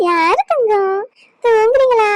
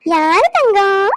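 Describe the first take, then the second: First: Higher, louder sing-song coo; baby talk. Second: Slow, drawn-out coo with a rising end; baby talk. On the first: Grandmother asking the baby if he is sleepy, high sing-song coo. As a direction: lift the voice up sweetly for the baby. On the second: Grandmother slowly cooing to her baby grandson. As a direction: stretch out Thangam slowly with a lifting coo. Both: Acted.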